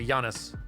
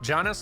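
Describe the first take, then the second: First: The name starts with a softer, non-hard J sound. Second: The name starts with a hard J sound.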